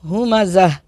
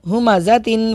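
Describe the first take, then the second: First: The word ends with an h sound. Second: The word ends with a -tin sound. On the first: The reading stops on this word. "वक़्फ़ में क्या पढ़ेंगे" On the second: The reading continues without stopping. "वसल में पड़ा"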